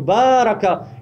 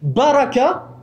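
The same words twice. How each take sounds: First: The first vowel is long. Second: The first vowel is short. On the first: God blesses. The speaker calls it right. "Baraka avec une voyelle longue" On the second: The camel kneels down to sit. The speaker calls it wrong. "si vous ne prononcez pas la voyelle longue, ça veut dire s'asseoir"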